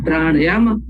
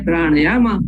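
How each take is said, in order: The two takes are said the same way.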